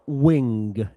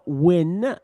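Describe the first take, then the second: First: It ends with a strong, audible g sound. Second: It ends on a plain n with no g. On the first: "and it's not wing" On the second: "it's not win"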